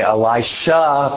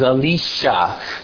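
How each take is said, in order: First: The name is said with English pronunciation. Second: The name is said with Hebrew pronunciation. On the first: "most people in this part of the world will say Elisha" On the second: "but his name is Elisha"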